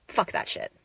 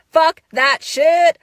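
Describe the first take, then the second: First: Softer whisper of defiance. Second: Higher, louder, slow laughing shout. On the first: Rejecting her old habits: whispered defiance. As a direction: breathe it out low and secret. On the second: Rejecting her old habits: laughing shout. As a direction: throw it out loud with a laugh. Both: Real, not acted.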